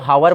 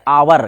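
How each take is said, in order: First: The word begins with an h sound. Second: The word begins with a vowel, no h. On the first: The speaker calls it wrong. "अब यदि हमारा pronounce यदि गलत हो जाएगा" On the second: The speaker calls it right. "जिसको बोलते हैं आवर"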